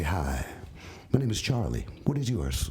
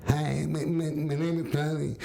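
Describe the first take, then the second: First: Low, smooth pick-up line; suave. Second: Awkward, slurred lisp on "Charlie"; nervous lisping stammer. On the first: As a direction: play the suave romancer introducing himself. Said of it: "I'm suave and say". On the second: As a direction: stumble on "my", repeating it before "name". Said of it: "Instead, I'm like". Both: Acted.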